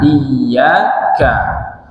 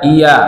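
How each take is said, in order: First: The y sound is held long and doubled. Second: The y sound is short and single. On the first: Only you we worship. The speaker calls it right. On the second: Only the sun we worship. The speaker calls it wrong. "Tapi diringankan, hilang satu huruf"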